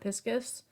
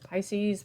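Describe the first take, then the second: First: It does not sound like Pisces. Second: It sounds like the zodiac sign Pisces. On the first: The speaker calls it right. "but it's Vesica Piscis" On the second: The speaker calls it wrong. "sometimes people pronounce it Pisces"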